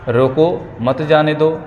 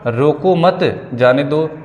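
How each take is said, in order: First: The pause comes right after 'roko'. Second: The pause comes right after 'mat'.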